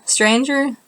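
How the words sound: It rises at the end like a question.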